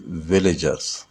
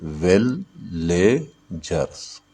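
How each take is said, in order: First: Said in the usual way. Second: "villagers" very slowly as विल, ले, जर्स; syllable by syllable. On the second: Shown as a demonstration. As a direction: separate "villagers" into three drawn-out beats. ("Villagers" को विल... ले... जर्स, रुक-रुक कर) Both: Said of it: "villagers में कितने syllable है?".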